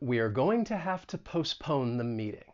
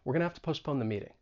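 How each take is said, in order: First: The sentence is said slowly and fully. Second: The sentence is said quickly and reduced.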